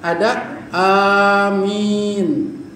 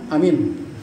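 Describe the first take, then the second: First: The vowel of the second syllable is lengthened. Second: No vowel in the word is lengthened. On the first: "Ada amin mi-nya yang panjang" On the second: "ada amin tidak panjang semuanya"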